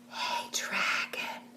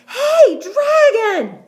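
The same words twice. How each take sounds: First: It is whispered very softly. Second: It is shouted very loudly.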